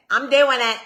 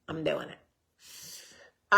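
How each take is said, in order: First: ^doing stevig en luider benadrukt; emphatic declaration. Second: Heel traag en zachter uitgerekt, eindigend omhoog; drawn-out repeat. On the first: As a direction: zeg het vol overtuiging, met klem. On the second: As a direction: rek "I'm doing it" langzaam uit en laat het stijgen. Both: Shown as a demonstration. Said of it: "so I'm getting it".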